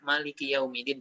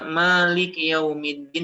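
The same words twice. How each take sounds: First: The first vowel of Malik is short. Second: The first vowel of Malik is long. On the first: "qiraat yang lain ada yang membaca" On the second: "dibaca panjang"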